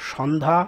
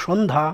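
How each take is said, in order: First: সন্ধ্যা with open ɔ, 'shawndha'; as written. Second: সন্ধ্যা as 'shondha', closed o; correct pronunciation. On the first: Teacher reading the word before correcting it, সন্ধ্যা as 'shɔndha'. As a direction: say সন্ধ্যা with an open first vowel. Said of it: "হবে সন্ধ্যা". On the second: Teacher correcting for students, সন্ধ্যা with a closed o, 'shondha'. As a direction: round the first vowel of সন্ধ্যা to o. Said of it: "হবে". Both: Shown as a demonstration.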